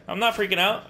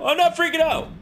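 First: Higher, louder nervous insistence; trying to stay calm and failing; nervous denial. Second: Much higher, louder panicked yell; panicked shout. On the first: Gamer to viewers, insisting he's calm, rising nerves. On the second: Gamer to viewers, denying his fear, panicked shout. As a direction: scream the denial in real panic. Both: Real, not acted.

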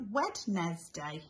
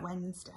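First: Wednesday said as Wed-nes-day, every letter sounded; spell-speak Wednesday as Wed nes day; Wednesday in three sounded parts, d and s heard; spelling pronunciation. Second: Said in the usual way. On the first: Shown as a demonstration. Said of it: "this is how we write Wednesday, but it's actually a bit like". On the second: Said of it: "this is how we write Wednesday".

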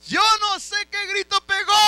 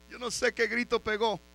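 First: Very high, loud shout; preaching shout. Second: Said in the usual way. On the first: Real, not acted. Preacher repeating the remark about the king's cry, preaching shout. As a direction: belt it out to the whole church.

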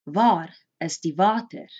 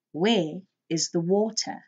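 First: "Waar is die water?" said as vaar is tee vater; teacher repeating the Afrikaans; Afrikaans question. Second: Said in the usual way. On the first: Shown as a demonstration. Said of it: "teacher models Afrikaans". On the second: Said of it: "English translation".

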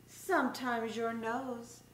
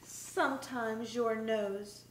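Both takes have the same delivery.

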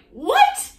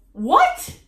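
First: Much higher, loud, squealing "What?"; even more shocked what. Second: High, loud, outraged "What?"; shocked what. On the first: Vlogger topping her own retold shock, even higher. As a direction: push the disbelief to a shriek. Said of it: "I didn't say that, but I was like". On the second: Vlogger replaying her shocked reaction to the mom comment. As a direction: squeal it in total disbelief. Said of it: "And I was like". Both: Retold or imitated.

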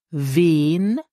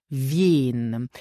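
First: First "wen" as a long "vehn", no y-glide; native speakers' pronunciation. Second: "wen" with a y-glide, like "vyehn"; standard pronunciation. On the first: Teacher lets learners hear the difference, "wen" without glide. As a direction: draw out "wen" on one simple vowel. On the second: Teacher lets learners hear the difference, "wen" with glide. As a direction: slide from v through y in a long "wen". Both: Shown as a demonstration. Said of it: "Do you hear the difference?".

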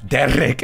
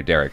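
First: Higher, put-on Scottish burr; mock-Scottish rolled r; thick Scottish accent. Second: Said in the usual way. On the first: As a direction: imitate a Scotsman saying his name. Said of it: "thick Scottish accent".

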